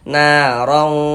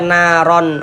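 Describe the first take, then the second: First: The final n is blurred and held nasally. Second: The final n sound is crisp and clear. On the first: The speaker calls it right. "tapi disamarkan. Narong, narong seperti itu" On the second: The speaker calls it wrong. "jangan dibaca naron, ron jelas begitu jangan"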